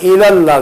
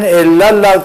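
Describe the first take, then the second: First: The first L sound is short and light. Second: The first L sound is doubled and held. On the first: It is done for nearness to God. The speaker calls it right. "तखफीफ के साथ" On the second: It is done for nearness to someone other than God. The speaker calls it wrong. "अल्लाह के सिवा दूसरे की कुर्बत के लिए"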